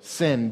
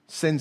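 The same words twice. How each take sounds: First: It is said slowly with a clear final d. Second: It is said quickly and sounds like sin. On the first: "I'm being very enunciative" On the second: "When I say that quickly"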